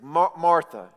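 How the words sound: It is said in a gentle, loving tone.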